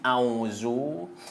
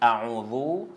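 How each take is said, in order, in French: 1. La consonne du milieu est un son z. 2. La consonne du milieu est un son th. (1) "cela veut dire c'est zaï" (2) "on récite a'udhu avec val, c'est pas avec zaï"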